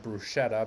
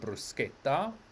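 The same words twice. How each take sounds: First: The middle consonant is a soft 'sh' sound. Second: The middle consonant is a hard 'k' sound. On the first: The speaker calls it wrong. "you will not find a bruschetta" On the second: The speaker calls it right. "but you'll have a bruschetta"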